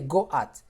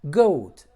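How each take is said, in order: First: The vowels are split into two syllables. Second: The vowel is one sound in one syllable. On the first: The speaker calls it wrong. "You don't say go at" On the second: The speaker calls it right. "you say O, O"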